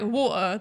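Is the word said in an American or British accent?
British. It has a British accent with a clear T.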